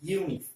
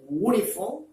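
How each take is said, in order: First: The word starts with a 'y' sound. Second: The word starts with a plain vowel sound. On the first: The speaker calls it right. "It is uniform" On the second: The speaker calls it wrong. "This is not a uniform"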